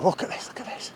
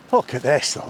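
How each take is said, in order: First: Soft awed whisper. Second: Said in the usual way. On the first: Real, not acted. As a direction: hush it, breathe the words.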